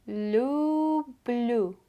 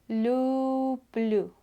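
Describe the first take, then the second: The two takes are said the same way.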